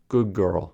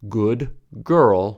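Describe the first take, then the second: First: 'Good' ends with a g sound. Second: 'Good' ends with a d sound.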